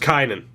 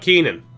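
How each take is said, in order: First: The first vowel sounds like 'eye'. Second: The first vowel sounds like 'ee'. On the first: The speaker calls it right. "That's Kynan" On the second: The speaker calls it wrong. "That's not Keenan"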